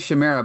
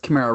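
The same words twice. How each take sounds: First: The word begins with a soft ch sound. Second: The word begins with a hard k sound. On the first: The speaker calls it wrong. "I probably used to say Chimera" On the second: The speaker calls it right. "but it's Chimera"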